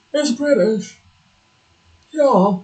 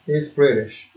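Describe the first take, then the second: First: "It's British" said higher in a mock British accent; playful put-on British accent. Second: Said in the usual way. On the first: Streamer teasing the British word, mock British accent. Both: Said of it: "because it's British".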